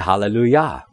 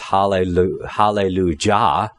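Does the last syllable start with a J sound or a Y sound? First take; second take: Y sound; J sound. First: The last syllable starts with a Y sound. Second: The last syllable starts with a J sound. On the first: The speaker calls it right. "They say hallelujah" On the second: The speaker calls it wrong. "No one says hallelujah"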